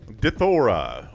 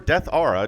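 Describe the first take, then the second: First: The name begins with a short 'dith' sound. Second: The name begins with the word 'death'. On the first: "depending on how you want to pronounce it" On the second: "I kind of like Death Aura"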